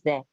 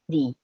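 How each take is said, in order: First: The word ends without an ee sound. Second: The word ends in an ee sound. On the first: A consonant sound follows the article. "When we have a consonant here, the pronunciation of the article the is the" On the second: A vowel sound follows the article. "you have to change the into e"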